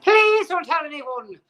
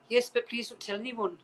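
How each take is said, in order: First: High, loud, drawn-out bad Irish-Scottish accent; hammed-up Irish accent. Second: Lightly attempted Irish slash Scottish accent; bad Irish accent. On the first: Irish actress begging a fan, exaggerated Irish accent. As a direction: overdo the Irish accent, pitched way up. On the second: Irish actress asking a fan for secrecy, bad Irish accent. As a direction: try a shaky Irish lilt, a bit higher. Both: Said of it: "That's a really bad Irish slash Scottish accent".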